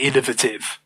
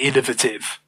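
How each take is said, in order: First: It is pronounced the British way. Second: It is pronounced the British way.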